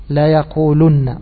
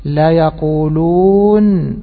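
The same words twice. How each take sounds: First: يقولن said slowly with ضمة on the لام and the doubled نون, no و; shortened form. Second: يقولون drawn out very slowly, long و and final ن sounded; original full form. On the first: Teacher shows students the shortened form, said slowly. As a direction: say the contracted يقولن deliberately, slower than usual. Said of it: "حذفت النون الأولى". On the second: Teacher shows students the original form, drawn out slowly. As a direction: slowly lay out the full يقولون before the shortening. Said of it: "فأصله إيش؟". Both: Shown as a demonstration.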